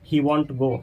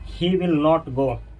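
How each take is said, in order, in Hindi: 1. 'Will not' एक छोटे शब्द में मिलाकर बोला जाता है। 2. 'Will not' दो पूरे शब्दों की तरह बोला जाता है। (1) "ही वॉन्ट गो मतलब विल नॉट को क्या किए हैं, मिला दिए हैं" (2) "जैसे हम बोले ही विल नॉट गो"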